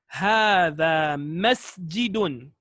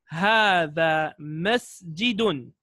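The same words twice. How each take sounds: The two takes are said the same way.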